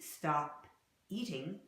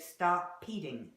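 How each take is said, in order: First: The two words are said separately. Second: The p sound joins onto the second word. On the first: "You may see stop eating" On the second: "an American will say stop peating"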